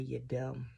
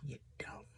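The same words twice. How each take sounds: First: Said in the usual way. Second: Softer whispered repeat of You're dumb; whispered aside. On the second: Real, not acted. Whispering to viewers about love making you foolish.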